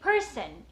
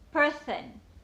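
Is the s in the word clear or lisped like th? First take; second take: clear; lisped. First: The s is a clear hissing sound. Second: The s sounds like a soft th.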